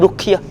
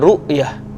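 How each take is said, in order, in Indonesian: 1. Konsonan tengahnya bunyi k. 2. Konsonan tengahnya hamzah. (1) "R U K, ruqyah. Dia bukan ruqyah" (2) "dia ru'yah. Ra hamzah"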